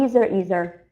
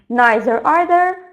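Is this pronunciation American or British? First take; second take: American; British. First: The words are said with an American pronunciation. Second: The words are said with a British pronunciation. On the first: "American one" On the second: "British one"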